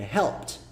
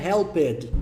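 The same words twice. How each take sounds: First: Helped said as one syllable ending in t, HELPT; helped clipped to helpt, no extra vowel; correct pronunciation. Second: Helped said with a full extra syllable, HEL-ped; helped split in two, hel-PED, the mistake; wrong pronunciation. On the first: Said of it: "É helped". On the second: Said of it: "Não é helped". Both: Shown as a demonstration.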